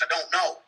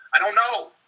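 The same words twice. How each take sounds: First: Said in the usual way. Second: "I don't know" pushed up and louder; getting loud. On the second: Retold or imitated. To the cop in interrogation, frustrated and raised. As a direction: snap it back in frustration. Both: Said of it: "I kinda got loud with him".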